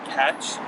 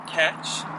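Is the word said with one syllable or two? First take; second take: one; two. First: It is said as one single syllable. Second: It is said as two syllables, Korean style. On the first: The speaker calls it right. "사실 영어로 얘기하면은 음절 하나예요" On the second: The speaker calls it wrong. "한국식 발음으로 하면은"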